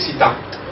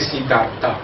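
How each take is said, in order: First: The name ends with a T sound. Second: The name ends with a soft final vowel. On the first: This is the form used in India today. "se dice Siddhartha... ahora ya lo acaban con T" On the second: This is the older form with the final vowel. "no se dice Siddhartha"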